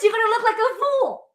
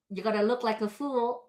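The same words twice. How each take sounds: First: It is said loudly, like screaming. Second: It is said softly, like a reminder.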